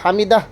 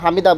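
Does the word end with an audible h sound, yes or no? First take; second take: yes; no. First: The word ends with an audible h sound. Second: The word ends on a vowel without h. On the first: The speaker calls it right. "আর সামি আল্লাহু লিমান হামিদাহ" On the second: The speaker calls it wrong. "হামিদা বলে হামিদাহ হু হা উচ্চারণ করে না"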